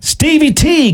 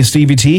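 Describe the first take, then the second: First: High, bright call-out of a name; excited greeting. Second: Said in the usual way. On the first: Real, not acted. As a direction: sing out the name in welcome. Host greets listener excitedly.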